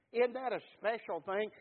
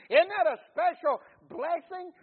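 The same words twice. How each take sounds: First: Said in the usual way. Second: Higher and louder, full of wonder; rising preacher's exclamation. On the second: Acted. Preacher crowns a run of questions, loud and high. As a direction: lift the last one high and loud.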